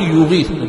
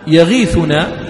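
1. الحركة الأولى ضمة. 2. الحركة الأولى فتحة. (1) "بضم الياء" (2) "بفتح الياء"

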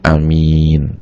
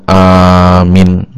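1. Vokal pertama pendek, vokal kedua panjang. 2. Vokal pertama panjang, vokal kedua pendek. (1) "Ini amin, ya orang yang sangat dipercaya" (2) "hamzahnya aja yang panjang, mimnya pendek"

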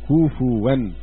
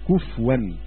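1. يتبعها حركة u ثم صوت w. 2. لا توجد حركة بعدها. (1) "ورواه حفص بالتثقيل وقلب الهمزة واوا" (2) "وقرأ حمزة بسكون الفاء"

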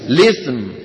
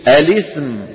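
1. تبدأ الكلمة مباشرة بصوت اللام. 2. تبدأ الكلمة بهمزة قبل اللام. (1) "والذي حذف الهمزة" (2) "اللي قال الاسم أبقى الهمزة"

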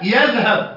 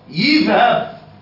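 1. المقطع الأول يحتوي على الحركة a. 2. المقطع الأول يحتوي على الحركة i. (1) "والياء عليها فتحة" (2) "أو كسرة"

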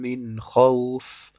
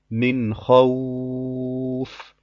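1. Der Vokal wird zwei Zählzeiten lang gehalten. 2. Der Vokal wird vier Zählzeiten lang gehalten. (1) "Das wären jetzt zwei Harakat" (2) "Mit vier hört sich dann so an"

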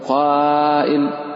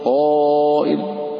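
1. ألف المد مرقَّقة ورفيعة. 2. ألف المد مفخَّمة ومليئة. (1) "ولا تقول" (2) "الألف يتبع ما قبله"

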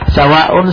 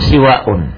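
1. Vokal pertama adalah bunyi a. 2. Vokal pertama adalah bunyi i. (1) "sinnya di fathah" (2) "sinnya di kasro"

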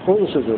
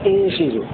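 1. الكلمة تبدأ بالحركة 'u'. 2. الكلمة تبدأ بالحركة 'a'. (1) "نبدأ بضم الهمزة" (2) "نبدأ بفتح الهمزة"

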